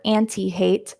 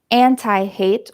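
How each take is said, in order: First: "anti" ending like "tea"; "anti" with an ee sound ending; pronounced "an-tee". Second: "anti" ending like "tie"; "anti" with an eye sound ending; pronounced "an-tie". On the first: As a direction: say "anti" as AN-tee, long E at the end. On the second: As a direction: say "anti" as AN-tie, long I at the end. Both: Shown as a demonstration. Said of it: "can be pronounced anti or anti".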